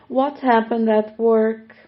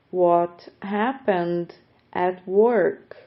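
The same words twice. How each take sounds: First: A brighter second reading; livelier variant. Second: Each word stretched out slowly; slow teaching pace. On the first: Teacher offering another way to say it, brighter. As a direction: say it again with more energy. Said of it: "Ou podemos também falar". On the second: Teacher slowing the phrase for students, slow and clear. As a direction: spell it out slowly for learners. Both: Shown as a demonstration.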